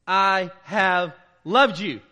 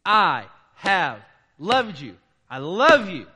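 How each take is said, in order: First: I have loved you, drawn out and loud; slow emphatic declaration of love; slow, loud, tender declaration. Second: I have loved you, slow and loud; emphatic divine declaration, drawn out. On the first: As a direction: dwell on each word like God speaking. Preacher voicing God's words. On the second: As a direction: let it land slowly, with weight. Repeating God's declaration. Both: Acted.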